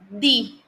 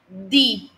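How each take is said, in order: First: The d is said with the tongue between teeth. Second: The same.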